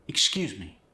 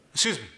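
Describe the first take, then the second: First: Said in the usual way. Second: Higher, melodic "excuse me" with X as S; quick Korean-accented "escuse me". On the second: Shown as a demonstration. Coach showing X becoming S, Korean accent. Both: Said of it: "More melodic".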